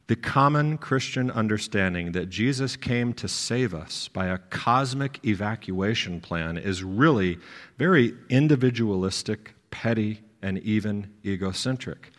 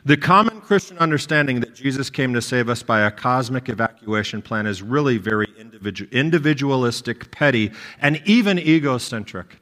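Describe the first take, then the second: First: It is read slowly. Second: It is read at a normal pace.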